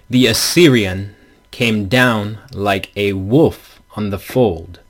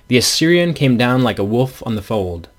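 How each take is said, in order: First: The stressed syllables are hit with heavy emphasis. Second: The stressed syllables are read with natural weight.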